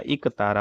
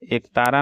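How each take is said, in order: First: Said in the usual way. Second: एक तारा opening on long e; wrong pronunciation. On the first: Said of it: "होता है". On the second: Shown as a demonstration. Teacher shows students the error, एक तारा with e sound. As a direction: start एक तारा with "ek", not "ik". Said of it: "नहीं होता".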